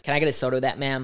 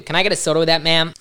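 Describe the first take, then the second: First: Put-on drawled Texas accent; exaggerated Southern Texas twang. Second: Put-on over-the-top American accent; loud, cheesy American accent; bad American accent. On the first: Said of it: "it was too Texas". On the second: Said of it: "worst American accent".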